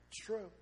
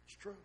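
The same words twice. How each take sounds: First: Said in the usual way. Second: "It's true" dropped much softer; softer repeat of "It's true"; quiet echo. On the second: Shown as a demonstration. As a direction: say "It's true" again under your breath, softer. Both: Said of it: "repeats it".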